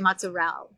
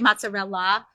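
First: It is said in a New Jersey Italian style. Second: It is said in a standard Italian style. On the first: This is how the restaurant's style says it. "It's more like New Jersey, New York Italian. They say mozzarella" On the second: This is how the restaurant's style does not say it. "They don't say mozzarella"

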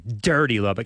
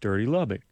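First: It is said with a harsh, sneering edge. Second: It is said in a milder, softer way. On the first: The place is being insulted pointedly. "the stank that I put on it" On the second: The insult is toned down. "It softens it just a little bit"

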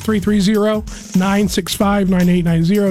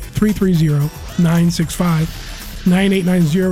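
First: The number is said at normal, quicker speed. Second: The number is said slowly and deliberately.

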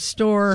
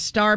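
First: The vowel sounds like 'or', as in store. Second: The vowel is the usual 'ar' sound. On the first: "must be from San Pete County" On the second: "Star becomes"

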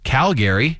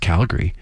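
First: Every syllable is said as spelled. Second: The word is said in a clipped way. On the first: The speaker is not from the city. The speaker calls it wrong. "it's written Calgary, but we know you're not from here if you say it like that" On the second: The speaker is from the city. The speaker calls it right. "No, it's Calgary"

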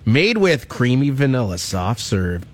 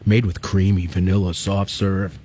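First: The voice is plain and ordinary. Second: The voice is low and sultry.

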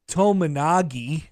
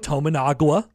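First: The name ends with a 'gi' sound. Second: The name ends with a 'gwa' sound. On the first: "Matt Painter called him Tominagi" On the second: "refer to Keisei Tominaga as the following"

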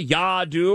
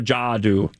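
First: The name begins with a Y sound. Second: The name begins with a J sound. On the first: "Would you go Yadu" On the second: "or would you go Jadu?"

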